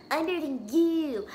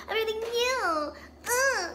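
First: Said in the usual way. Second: Higher brag. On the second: Acted. Rival repeating her boast in a higher voice. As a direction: pitch it up, a higher, bratty boast.

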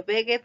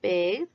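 First: "begged" wrongly split in two, "beg-ged"; mistaken extra syllable. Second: "Begged" as "begd", e silent; one syllable. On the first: Teacher warns pupils how not to say it, extra syllable. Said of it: "no se dice". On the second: Teacher corrects the mistake for pupils, one syllable. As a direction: say "Begged" in one beat with a voiced d. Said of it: "una sílaba". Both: Shown as a demonstration.

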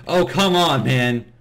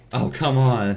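First: Loud, fed-up "come on"; exasperated groan. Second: Said in the usual way. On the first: Real, not acted. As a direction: throw up your hands, annoyed. Frustrated at dying in game.

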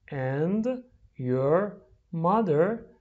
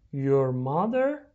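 First: "And ... your ... mother?" very slowly, word apart from word; slow, separated model reading for repeating. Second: Said in the usual way. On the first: Shown as a demonstration. Teacher drills the question for repeating, word by word.

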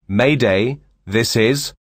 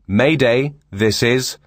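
Both takes have the same delivery.

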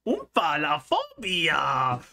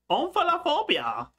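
First: Omphalophobia drawn out syllable by syllable; slow careful try. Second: Omphalophobia said high and quick; quick high try. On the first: Sounds the word out slowly for viewers. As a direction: spell out Omphalophobia slowly in her own voice. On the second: Tries the hard word for viewers, high and quick. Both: Shown as a demonstration.

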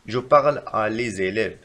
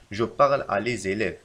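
First: Slow, careful wrong example; slow dictation. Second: Slow, even reread; slow repeat. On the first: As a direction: dictate it slowly. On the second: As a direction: say it slowly again. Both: Shown as a demonstration. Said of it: "فالخطأ في هذه الجملة".

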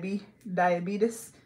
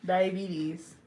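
First: "diabetes" slowly as "dia-bee-tus"; slow, stretched "diabetes" with a "-tus" ending; mispronunciation. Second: "Diabetes" ending in "-teez"; own pronunciation. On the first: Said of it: "No such word as". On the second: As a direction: say "Diabetes" as "dia-BEE-teez". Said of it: "No, I say diabetes". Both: Shown as a demonstration.

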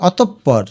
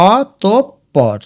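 First: Said in the usual way. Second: অতঃপর very slowly as o, top, por; long gaps between the pieces of অতঃপর; syllable by syllable. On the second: Shown as a demonstration. Teacher demonstrating the pronunciation, অতঃপর slowly split o-top-por. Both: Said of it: "এটার উচ্চারণ হচ্ছে".

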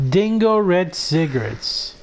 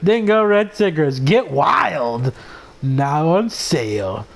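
First: Said in the usual way. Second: Mock commercial. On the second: Shown as a demonstration. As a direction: pitch it like a tacky TV spot. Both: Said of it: "I mean, Ding".

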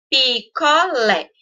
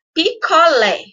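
First: "Picolé" slow, in three pieces: pi-co-lé; separado em sílabas. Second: Said in the usual way. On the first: Shown as a demonstration. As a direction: break "Picolé" into three drawn-out syllables. ("Picolé" silabado devagar, pi-co-lé) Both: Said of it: "Separei ela em três pedacinhos".

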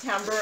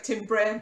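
First: "timbre" said as TAM-ber; correct pronunciation of timbre. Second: "timbre" said as it looks, TIM-bray; spelling pronunciation of timbre. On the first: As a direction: pronounce "timbre" with an a sound, ending in -ber. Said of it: "I think, pronounced timbre". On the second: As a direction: read "timbre" by its spelling, with a short i. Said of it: "it looks like timbre, but it's". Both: Shown as a demonstration.

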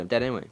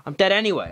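First: Said in the usual way. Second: Higher and louder, dead stretched out; exasperated exclamation. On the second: Real, not acted. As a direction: throw it out in mock despair.

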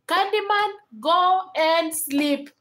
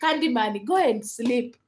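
First: Higher and very slow, drawn out; exasperated repeat. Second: Said in the usual way. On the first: Real, not acted. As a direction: stretch each word like a tired parent. Telling a viewer to sleep.

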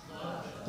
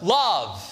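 First: Breathy whisper of the answer; hushed reverent whisper. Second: Love said out loud and firm; emphatic declaration of Love; firm spoken answer. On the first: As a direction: breathe the word out, unvoiced. Preacher answers his own question softly. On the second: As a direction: land the word Love with full voice. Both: Acted.

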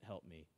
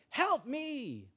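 First: Said in the usual way. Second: High, drawn-out mock cry; cry for help. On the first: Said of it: "that would be kind of like the Old Testament". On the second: Someone in trouble calling to God, crying for help. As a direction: call out long and high as if in trouble. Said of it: "when you're in trouble, you, you're like".

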